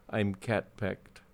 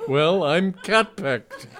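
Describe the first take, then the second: First: Slow, soft, dejected admission; bitter confession. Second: Slow, high, loud insistence; exasperated emphatic declaration; irritated. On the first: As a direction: confess it slowly and quietly, with bitterness. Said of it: "uttered a bitter, mirthless laugh". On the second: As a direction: spell it out loudly and testily. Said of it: "with a touch of irritation". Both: A narrator's reading.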